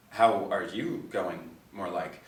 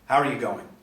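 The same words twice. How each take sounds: First: Put-on slow, awkward grating Western suburbs Australian accent; Wendy's awkward Western suburbs accent, slowed down. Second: Said in the usual way. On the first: A narrator's reading. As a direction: drag out how are you going in a grating Western suburbs accent. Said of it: "awkward, grating Western suburbs accent".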